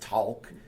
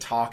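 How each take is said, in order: First: The vowel has a Southern American drawl. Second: The vowel sounds like plain general American. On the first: "it's talk" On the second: "instead of talk"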